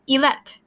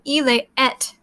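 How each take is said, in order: First: One vowel is dropped, making one run-together word. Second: Both vowels are said as separate words. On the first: "pretend that the one of them doesn't exist and just say ilet" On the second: "Instead of the speaker saying ile et"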